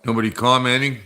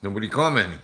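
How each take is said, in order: First: Rising, puzzled question; curious rising tune on commenting. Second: Falling, resigned statement; flat statement. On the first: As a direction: ask it, waiting for an answer. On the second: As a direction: settle it, a dry fact. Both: Shown as a demonstration.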